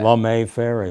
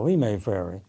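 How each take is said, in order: First: The name is said the automated-voice way. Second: The name is said the local way. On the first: This is how the computer voice says the name. "pronounce street names a little differently sometimes, such as" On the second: This is how local people say the name. "which we would call"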